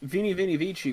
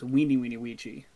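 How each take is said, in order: First: It is said with an English V and soft C. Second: The V sounds are said as W sounds.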